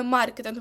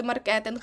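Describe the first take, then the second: First: «маркетинг» as MAR-ketynh; stress on first syllable. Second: «маркетинг» as mar-KE-tynh; wrong second-syllable stress. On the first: Teacher showing correct маркетинг, first-syllable stress. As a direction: hit МАР in «маркетинг». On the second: Teacher showing students' mistaken маркетинг, stress on ке. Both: Shown as a demonstration. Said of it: "ви дуже часто говорите маркетинг".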